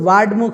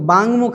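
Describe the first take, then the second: First: A d sound comes before mukh. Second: A hard g sound comes before mukh. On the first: "वो भी नहीं है" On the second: "बांगमुख नहीं"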